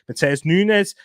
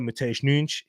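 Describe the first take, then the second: First: The name is said with an everyday anglicized pronunciation. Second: The name is said with a native-style pronunciation.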